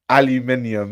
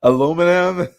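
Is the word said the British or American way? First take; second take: British; American. First: It is said the British way, five syllables. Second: It is said the American way, four syllables.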